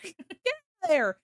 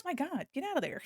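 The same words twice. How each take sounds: First: Laughing mock scold. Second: Said in the usual way. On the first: Chat pokes avatar's nose.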